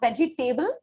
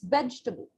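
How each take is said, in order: First: The stress falls on the third syllable. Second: The stress falls on the first syllable. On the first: The speaker calls it wrong. "it is not vegetable" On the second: The speaker calls it right. "Here I am stressing on the E sound"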